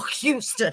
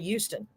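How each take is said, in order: First: The word starts with a clear H sound. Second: The word starts without an H sound. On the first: "I specifically go Houston with a H" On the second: "I used to say Houston"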